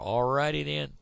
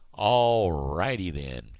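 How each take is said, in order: First: Questioning sign-off. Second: Drawn-out sign-off. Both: Shown as a demonstration.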